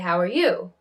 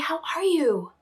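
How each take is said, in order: First: The stress is on "you". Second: The stress is on "are".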